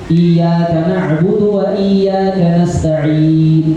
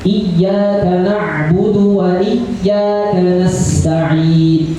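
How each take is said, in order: First: The y sound in iyyaka is short and single. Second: The y sound in iyyaka is held and doubled. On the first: The worship is addressed to the sun. The speaker calls it wrong. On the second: The worship is addressed to God alone. The speaker calls it right.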